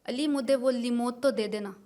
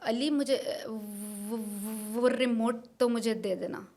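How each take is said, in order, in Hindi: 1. remote में 'r' की आवाज़ 'l' बन जाती है। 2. एक शब्द हकलाहट के साथ दोहराया जाता है। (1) "और आर्टिकुलेशन में" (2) "दिस दिस इज हकलाहट।"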